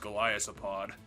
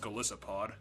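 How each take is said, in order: First: The name has a 'th' sound in the middle. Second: The name has an 's' sound in the middle. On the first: The speaker calls it wrong. "I'm saying it wrong" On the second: The speaker calls it right. "it's just Golisopod"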